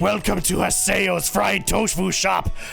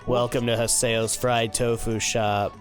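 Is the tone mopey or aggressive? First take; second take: aggressive; mopey. First: It is said in an aggressive, forceful tone. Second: It is said in a gloomy, mopey tone.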